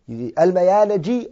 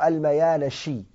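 First: The last consonant is a 'j' sound. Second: The last consonant is a 'sh' sound. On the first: "You can say it with a jim" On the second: "or you can say it with a sheen"

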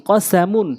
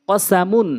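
The two takes are said the same way.

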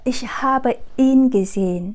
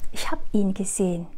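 First: The verb is said in full as habe. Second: The verb is shortened to hab. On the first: The speaker calls it wrong. "Chỉ chúng ta không nói là" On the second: The speaker calls it right. "Chúng ta sẽ nói là"

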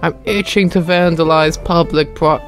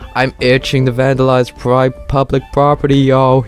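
First: It is said in the speaker's normal voice. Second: It is said in a put-on character voice.

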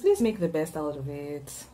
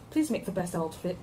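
First: It is said in the speaker's usual accent. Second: It is said in a British accent.

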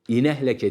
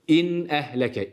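First: The n runs straight into the next vowel. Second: The n is closed before the next vowel. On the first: The speaker calls it wrong. "İnehleke değil" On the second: The speaker calls it right. "İşte izharın faydası"

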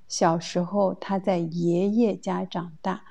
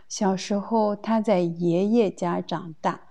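The two takes are said the same way.

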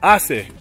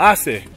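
First: The c is pronounced like an s. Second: The c is pronounced like an s.

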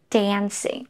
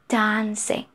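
First: It is said in an American accent. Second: It is said in a British accent. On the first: "American English" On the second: "British English"

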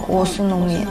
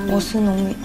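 No difference in how they are said.

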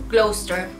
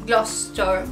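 The two takes are said the same way.

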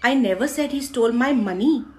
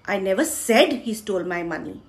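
First: The stress falls on the word money. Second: The stress falls on the word said. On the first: Something other than money was stolen. "पैसे नहीं" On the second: It was not said, but he did steal it. "मैंने बोला नहीं, पर उसी ने चुराया है"

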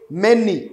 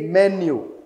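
First: The word ends in an 'ee' sound. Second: The word ends in a 'you' sound. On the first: The speaker calls it wrong. "We don't say many" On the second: The speaker calls it right. "we say menu"

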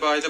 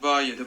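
First: The phrase is said very fast and blurred. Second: The phrase is said quickly but clearly. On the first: "Daha hızlı" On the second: "Ba 7'yi hızlı söyle"

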